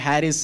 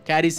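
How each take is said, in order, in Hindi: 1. शब्द की शुरुआत H की आवाज़ से होती है। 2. शब्द की शुरुआत K की आवाज़ से होती है। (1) "कोई कहता है सी साइलेंट है" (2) "कैरिस ही हम प्रोनाउंस करते हैं"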